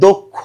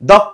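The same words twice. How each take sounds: First: The first vowel is a closed oh sound. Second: The first vowel is an open aw sound. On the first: The speaker calls it right. "এখানে হবে দক্ষ" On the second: The speaker calls it wrong. "দক্ষ হবে না"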